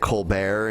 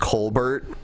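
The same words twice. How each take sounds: First: The name is said like a French name. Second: The name is said like an Irish name. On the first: This is the form the bearer chose to use. "instead he pronounces it Colbert ... a French name" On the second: This is the family's original form of the name. "originally pronounced Colbert, which is like an Irish name"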